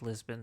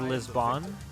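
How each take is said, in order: First: The name is said with a plain English pronunciation. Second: The name is said with a Spanish-sounding pronunciation. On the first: This is the usual name of the city. "the city is just Lisbon" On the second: This is how the show's characters say it. "Because the show's in Spanish, they say Lisbon"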